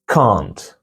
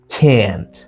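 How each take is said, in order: First: The word is said in a British accent. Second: The word is said in an American accent. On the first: "In British, this is can't" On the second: "In American, this is can't"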